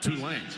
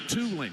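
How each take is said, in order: First: The stress is on the second syllable. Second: The stress is on the first syllable. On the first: The speaker calls it wrong. "You said Tulane" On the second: The speaker calls it right. "It's Tulane. You got to emphasize the two"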